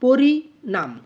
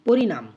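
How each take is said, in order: First: পরিণাম as two held beats, পরি, then ণাম; two-group split. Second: Said in the usual way. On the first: Shown as a demonstration. Teacher shows how we group পরিণাম, split in two beats. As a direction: say পরিণাম louder, broken after পরি. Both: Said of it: "এভাবে আমরা উচ্চারণ করার".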